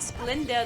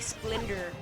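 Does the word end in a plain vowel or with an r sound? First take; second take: plain vowel; r sound. First: The word ends in a plain vowel. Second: The word ends with an r sound. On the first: The speaker calls it right. "instead of saying Splenda" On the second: The speaker calls it wrong. "they'll say Splendor"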